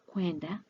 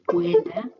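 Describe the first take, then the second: First: The word is said fast with sounds run together. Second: The word is said slowly with every sound clear. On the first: "sounds as kwenda when one speaks or when speaking fast" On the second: "The Swahili verb kwenda"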